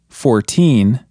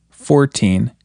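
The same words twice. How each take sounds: First: Put-on "fourteen" with "teen" drawn out and stressed. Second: "fourteen" with the first syllable stressed; counting-style "fourteen", weight on "four". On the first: Teacher contrasting it with forty, strong stress on "teen" in "fourteen". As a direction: lean hard on "teen" in "fourteen". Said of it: "try putting more emphasis on teen". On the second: Teacher counting teen numbers for learners, first-syllable stress on "fourteen". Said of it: "more emphasis on the first syllable". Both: Shown as a demonstration.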